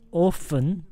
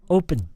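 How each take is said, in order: First: The middle consonant is an F sound. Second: The middle consonant is a P sound. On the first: The speaker calls it wrong. "Not often" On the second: The speaker calls it right. "Just open. No F"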